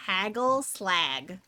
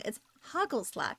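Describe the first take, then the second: First: Canadian accent, slow Haggle slag, hard g. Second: Hagelslag with a throaty Dutch g; Dutch pronunciation. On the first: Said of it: "in a Canadian accent". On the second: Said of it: "the Dutch G has, like, a h sound". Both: Shown as a demonstration.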